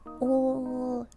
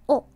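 First: The vowel is drawn out and glides. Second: The vowel is short and pure. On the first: "in like American English, the vowels are like held out like oh" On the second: "not like oh"

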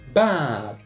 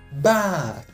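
The two takes are said the same way.

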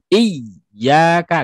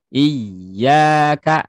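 First: The ya syllable is pressed hard and forcefully. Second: The ya syllable is raised slightly in pitch. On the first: The speaker calls it wrong. "tidak boleh terlalu ditekan" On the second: The speaker calls it right. "dinaikin sedikit saja suara iya-nya"

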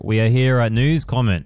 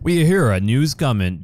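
First: It is read in his normal voice. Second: It is read in a put-on newscaster voice.

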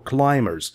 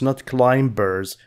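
First: The b sound is silent after the m. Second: The b sound is pronounced after the m. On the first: The speaker calls it right. "Be here is silent" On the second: The speaker calls it wrong.

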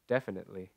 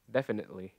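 Both takes have the same delivery.

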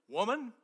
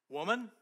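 No difference in how they are said.

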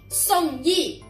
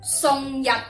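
First: The name is read with Mandarin sounds. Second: The name is read with Cantonese sounds. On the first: "普通话正确读音系读依依" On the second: "粤语系读日日"

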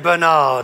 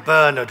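First: The name is pronounced the American way. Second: The name is pronounced a non-American way. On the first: "the Americans would say Bernard" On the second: "I say Bernard"

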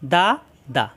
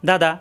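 First: The syllables are said slowly and separately. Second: The syllables are said quickly and joined.

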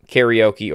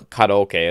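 First: The word has an English pronunciation. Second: The word has a Japanese pronunciation.

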